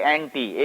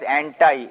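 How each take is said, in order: First: It is said the Indian way. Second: It is said the American way.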